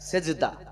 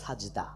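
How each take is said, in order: First: The first vowel sounds like 'e'. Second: The first vowel sounds like 'a'. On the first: This is the common Bengali form. The speaker calls it wrong. "আমরা বাংলাতে লিখি" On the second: This is the original form of the word. The speaker calls it right. "কিন্তু আসল হবে শব্দটা সাজদা"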